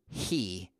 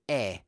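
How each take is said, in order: First: The word begins with an audible H sound. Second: The word begins directly with the vowel sound. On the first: The speaker calls it wrong. "it looks like H, E, he" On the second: The speaker calls it right. "but we say E"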